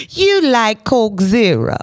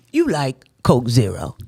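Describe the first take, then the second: First: Higher, stretched-out teasing; drawn-out, lifted playful jab. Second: Said in the usual way. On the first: Real, not acted. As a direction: repeat it slowly, amused and higher. Repeats it after laughing.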